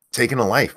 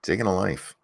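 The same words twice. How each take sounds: First: Said in the usual way. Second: Softer, sinking echo of "Taking a life"; quiet repeat. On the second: Real, not acted. Host musing on the death penalty, repeating "Taking a life" softly. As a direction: let "Taking a life" drop away, hushed.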